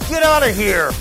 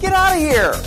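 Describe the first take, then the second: First: It is said in an angry tone. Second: It is said in an excited tone. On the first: Telling someone to go away. "If you say it in an angry tone" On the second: Expressing disbelief at surprising news. "if you say it in an excited tone with a happy face"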